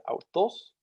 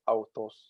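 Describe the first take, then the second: First: "autos" with "tos" higher in pitch than "au"; acute pitch accent. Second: "autos" held on one level pitch. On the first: Lecturer demonstrating Greek acute accent, "autos" rising onto "tos". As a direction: lift the pitch on the end of "autos". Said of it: "the tos is higher in pitch than the au". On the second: Lecturer demonstrating Greek grave accent, "autos" with no rise at all. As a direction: keep both syllables of "autos" on the same note. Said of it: "the pitch remains the same in the word". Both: Shown as a demonstration.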